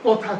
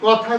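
First: "কথা" with a rounded closed o, kotha; "কথা" shown wrong with closed o; wrong closed vowel. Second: "কথা" with an open first vowel, kɔtha; "কথা" as kɔ-tha, open ɔ; correct open vowel. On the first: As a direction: say "কথা" as ko-tha, lips tightened. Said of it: "কথা করব না". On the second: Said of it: "আমরা লতা করব কিন্তু লতা করব না". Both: Shown as a demonstration.

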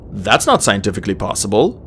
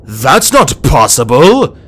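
First: Said in the usual way. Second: Loud, drawn-out outburst of disbelief; stunned, emphatic exclamation; alarmed disbelief. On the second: A narrator's reading. Disbelieving thoughts escalate into panic.

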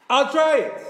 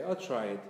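First: Loud, high, all-out shout; forceful shout. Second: Said in the usual way. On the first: Shown as a demonstration. Preacher showing how the voice must strike, forceful shout. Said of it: "The voice has to strike". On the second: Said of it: "it's not enough to say".

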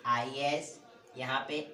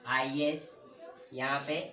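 Both takes have the same delivery.

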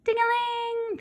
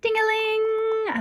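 First: High falling bell chime; bell ding-a-ling. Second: High sung bell chime, slow; bell ding-a-ling. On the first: Narrator chiming the doorbell as the figure leaves, high. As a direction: ring it out like the doorbell. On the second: Narrator chiming the shop doorbell as it opens, high and slow. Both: Acted.

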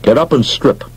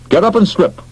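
First: Commanding. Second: Insistent command. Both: Acted. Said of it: "he announced".

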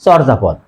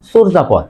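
First: চর্যাপদ said "chawrjapod"; common mispronunciation. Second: চর্যাপদ said "chorjapod"; rounded o in first syllable of চর্যাপদ; correct o sound. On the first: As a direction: open aw vowel starting চর্যাপদ. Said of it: "আমরা অনেকে উচ্চারণ করি". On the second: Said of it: "হবে". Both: Shown as a demonstration.

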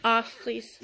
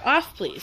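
First: Said in the usual way. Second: Repeated with a laugh. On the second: Real, not acted. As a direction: say it again through a chuckle. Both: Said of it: "I said".

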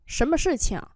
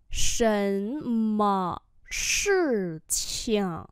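First: Said in the usual way. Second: Shen me shi qiang stretched slowly; slow enough to catch the neutral tone; slow teacher demo; very slow model. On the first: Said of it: "slow repeat follows". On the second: Shown as a demonstration. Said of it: "slow model repeat".

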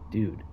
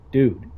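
First: Said in the usual way. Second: Dude, said much louder and higher; a sudden, urgent cry of dude. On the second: Acted. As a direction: raise your voice on the second dude. Pleading with friend, repeated.

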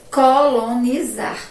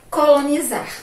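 First: "Colonizar" stretched syllable by syllable; slow dictation. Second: Said in the usual way. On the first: Shown as a demonstration. Teacher repeating a word for the class, slow dictation. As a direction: say "Colonizar" slowly for spelling.

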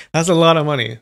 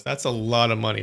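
First: Laughing. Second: Said in the usual way. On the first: Real, not acted.

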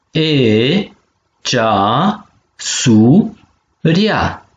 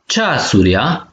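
First: Cea, su, ria in three separate beats; syllable by syllable. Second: Said in the usual way. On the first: Shown as a demonstration. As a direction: split it cea - su - ria, pausing between. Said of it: "So de silabe si". (pe silabe: cea, su, ria) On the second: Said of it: "O alaf".

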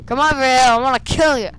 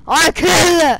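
First: Taunting. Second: Loud high shouted taunt. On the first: Taunting guard in game. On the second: Gamer yelling at a guard to come closer, loud taunting shout. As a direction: yell it at the guard, playful bloodlust. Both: Real, not acted.

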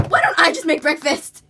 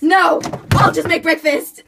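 First: Exasperated. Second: Shouting. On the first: Exasperated take of the line. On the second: Blooper retake, laughing. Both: Acted.

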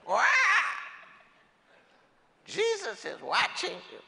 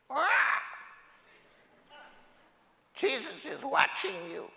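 First: High squawking parrot voice, much higher. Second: High squawking parrot voice, much higher; shrill cartoon parrot warning. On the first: Acted. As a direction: squawk it like a parrot again, rising at the end. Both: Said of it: "And the parrot says".

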